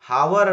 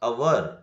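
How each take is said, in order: First: The word begins with an h sound. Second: The word begins with a vowel sound. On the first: The speaker calls it wrong. "ಹಾವರ್ ಅನ್ಬಾರ್ದು" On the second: The speaker calls it right. "ಇಲ್ಲಿ ಎಚ್ ಏನಾಗ್ತಾ ಇದೆ? Silent ಆಗ್ತಾ ಇದೆ"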